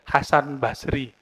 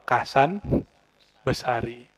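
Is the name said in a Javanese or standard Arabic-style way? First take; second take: standard; Javanese. First: The name starts with h and has two syllables. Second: The name starts with k and adds a vowel. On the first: "itu namanya Syekh Kiai Hasan Basri" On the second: "Logat orang Jawa"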